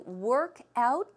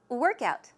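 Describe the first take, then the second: First: The stress is not on the first part. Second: The stress is on the first syllable. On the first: It is a verb meaning to exercise. "as a verb, to work out means to exercise" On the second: It is a noun meaning exercise. "the stress goes where? On the first syllable"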